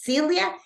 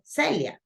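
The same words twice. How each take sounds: First: The name is pronounced with English sounds. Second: The name is pronounced with Spanish sounds. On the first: "a way to pronounce it in English" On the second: "In Spanish, we said Celia"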